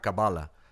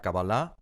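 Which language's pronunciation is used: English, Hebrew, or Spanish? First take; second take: English; Hebrew. First: The word is said with an English pronunciation. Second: The word is said with a Hebrew pronunciation. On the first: "en inglés te dirá Kabbalah" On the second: "con alguien en hebreo te dirá Kabbalah"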